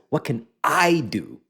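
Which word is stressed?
I. The stress is on the word I.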